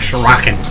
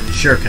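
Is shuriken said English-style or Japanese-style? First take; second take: English-style; Japanese-style. First: The word is said in an English-style way. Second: The word is said in a Japanese-style way. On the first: The speaker calls it wrong. "Not shuriken" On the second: The speaker calls it right. "Right, shuriken"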